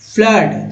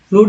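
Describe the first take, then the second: First: The vowel is a short uh sound. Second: The vowel is a long oo sound. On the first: The speaker calls it right. "फ्लड सही है" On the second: The speaker calls it wrong. "फ्लूड नहीं"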